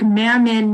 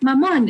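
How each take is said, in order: First: It is said with a mocking anglicized pronunciation. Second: It is said with the native Filipino pronunciation. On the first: The speaker calls it wrong. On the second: The speaker calls it right.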